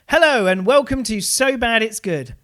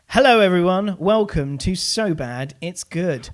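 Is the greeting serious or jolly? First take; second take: jolly; serious. First: The greeting sounds jolly and upbeat. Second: The greeting sounds serious and flat.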